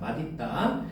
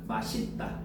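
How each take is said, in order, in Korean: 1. 가운데 자음은 d처럼 들려요. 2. 가운데 자음은 s처럼 들려요. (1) "마딛다가 된다는 거야" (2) "예외적으로 뭐도 된다고요? 맛있다로도 된대요"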